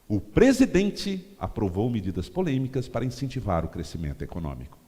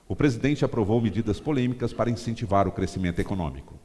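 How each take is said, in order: First: The word presidente is given strong emphasis. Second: No word is given special emphasis. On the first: It aims to move the president's supporters. "Você dá ênfase no presidente" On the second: The sentence stays neutral. "eu li a frase sem dar ênfase em palavra nenhuma"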